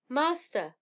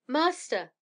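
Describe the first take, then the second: First: High, loud cry for help; calling out again. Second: High, loud cry for help; calling out loudly. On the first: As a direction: call the master, higher and a bit louder. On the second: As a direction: call to the master, higher and louder. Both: A narrator's reading. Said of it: "it called out loudly".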